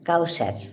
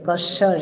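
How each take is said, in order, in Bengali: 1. নামটি Kawsar এর মতো বলা হয়। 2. নামটি Kaswar এর মতো বলা হয়। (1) "হ্যাঁ কাউসার" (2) "এরকম এরকম প্রনাউন্স করছিলাম"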